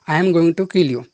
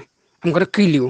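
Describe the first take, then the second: First: 'Going to' is said fully as two words. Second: 'Going to' is reduced to 'gonna'. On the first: This is how Indian speakers say it. "Indian बोलेंगे तो बोलेंगे" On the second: This is how native speakers say it. "गोइंग टू को गोना बोलते हैं"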